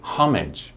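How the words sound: It is said with an English pronunciation. "In English we say homage"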